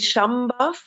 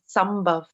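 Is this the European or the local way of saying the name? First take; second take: European; local. First: It is the easier pronunciation used in Europe. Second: It is the pronunciation used by local speakers. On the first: This is the form used abroad. "here in Europe it's easier to say Shambhav" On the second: This is the form used at home. "locals they say Sambhav"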